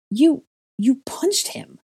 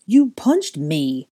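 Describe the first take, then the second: First: High, loud, drawn-out disbelief; stunned, slow accusation; shocked stammer. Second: Slow, loud, dazed complaint; dazed, drawn-out accusation; stunned mumble. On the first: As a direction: stammer it out aghast, pitched way up. Stunned henchman accuses Draco. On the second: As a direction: say it slowly, nursing a sore jaw. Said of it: "Goyle mumbled, feeling his jaw". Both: A narrator's reading.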